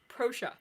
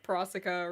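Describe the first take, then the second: First: The ending sounds like the word fascia. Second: The ending does not sound like fascia. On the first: The speaker calls it right. "it's pronounced like fascia, but it's with pro" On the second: The speaker calls it wrong. "I've been saying like Prosica or something"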